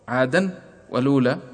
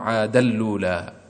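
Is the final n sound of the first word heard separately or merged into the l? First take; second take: separate; merged. First: The n sound is kept before the l. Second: The n sound merges fully into the l. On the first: "فهنا العبارة تحولت عادا ولولا" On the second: "فندغم التنوين في اللام"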